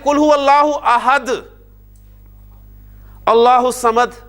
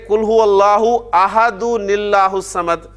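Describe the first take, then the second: First: The two verses are read separately with a pause. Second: The two verses are joined without a pause.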